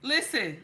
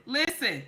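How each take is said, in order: Both takes have the same delivery.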